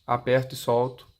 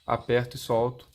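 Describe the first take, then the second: No difference in how they are said.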